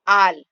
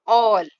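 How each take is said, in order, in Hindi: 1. स्वर एक खुला 'ah' ध्वनि है। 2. स्वर एक गोल 'aw' ध्वनि है।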